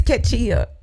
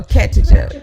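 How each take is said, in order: First: "Katia" as keh-TEE-oh, stressed on TEE; first name guess. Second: "Katia" as KET-uh-juh, stress first; alternative name guess. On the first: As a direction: offer "Katia" with a clear long EE in the middle. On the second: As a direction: offer "Katia" with a J sound in the last syllable. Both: Real, not acted. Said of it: "messing your name up like that".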